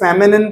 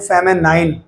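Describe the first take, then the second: First: The last syllable is a short 'nin'. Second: The last syllable rhymes with 'nine'. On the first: The speaker calls it right. "आप इसे फेमिनिन पढ़ें, वो ज्यादा बेहतर होगा" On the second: The speaker calls it wrong. "कई बार वो बोलने में गलती करते हैं, बोलते हैं फेमिनाइन"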